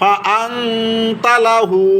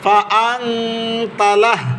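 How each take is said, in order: First: The phrase ends with a 'u' vowel. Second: The phrase ends on a bare 'h' sound. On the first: The reading continues without stopping. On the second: The reader stops at this word.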